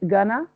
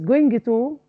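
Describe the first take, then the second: First: The words are reduced and run together. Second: Both words are said fully and separately. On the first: "make it gonna" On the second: "use going to"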